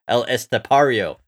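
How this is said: The name is said with an American accent. "We can say it like an American"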